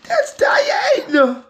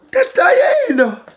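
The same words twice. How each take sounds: First: High, slow excited call; excited shout. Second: High, drawn-out excited call; excited shout. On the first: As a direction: announce it again, thrilled. Repeats reveal. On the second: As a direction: announce it with delight. Excited reveal of doll. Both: Real, not acted.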